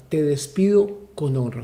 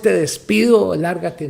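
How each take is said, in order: First: Calm, even farewell at normal level; honourable farewell. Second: Rude dismissal. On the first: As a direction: let him go with respect. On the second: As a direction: shove him out the door with the words. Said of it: "No es". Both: Shown as a demonstration.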